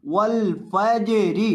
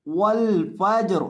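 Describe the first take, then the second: First: वल फजरी slowly, the ज bounced with a small echo vowel; qalqala on jeem. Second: वल फज्र slowly with a falling tune, ending closed on ज्र; pause form. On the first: Teacher demonstrating qalqala on ज to students, slow and deliberate. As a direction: make the ज in वल फजरी jolt and rebound. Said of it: "इसे हम यहाँ हिलाकर पढ़ेंगे". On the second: Teacher showing students how to stop on वल फज्र, slow and falling. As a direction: stop on वल फज्र with no vowel after the र. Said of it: "वकफ का तरीका कर देख लें". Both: Shown as a demonstration.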